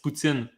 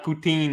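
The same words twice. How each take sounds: First: The second syllable sounds like 'tsin'. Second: The second syllable sounds like 'teen'. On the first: The speaker calls it right. "It's poutine. ... you say tin like Martin" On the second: The speaker calls it wrong. "poutine is not poutine in French"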